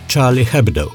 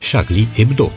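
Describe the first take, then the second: First: It is said with English pronunciation, audible H. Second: It is said with French pronunciation, silent H. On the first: The speaker calls it wrong. "nu cea engleză, cu H tare, auzit" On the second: The speaker calls it right. "pronunția corectă este cea franceză"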